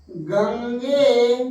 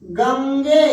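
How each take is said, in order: First: गंगे spelled out very slowly, each syllable held; slow, deliberate गंगे; drawn-out demo. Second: Said in the usual way. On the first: Shown as a demonstration. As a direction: stretch गंगे slowly to show its ending. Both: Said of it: "अब देखना".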